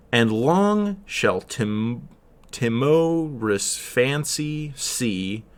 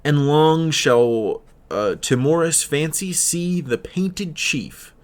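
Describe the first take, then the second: First: Very slow, each beat of "And long shall tim-, timorous fancy see" stressed in turn; metrical stress demo. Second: Slow verse reading, stretched long; poem recitation. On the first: Shown as a demonstration. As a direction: tap out the four stresses slowly. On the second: Acted. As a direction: read the line as poetry, not by stresses. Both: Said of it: "would read".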